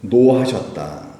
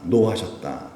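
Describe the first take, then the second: First: 노하셨다 stretched slowly and firmly; drawn out. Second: Said in the usual way. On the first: Shown as a demonstration. Preacher answering his own question, 노하셨다 slow. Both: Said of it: "예수님께서 뭐 하셨다".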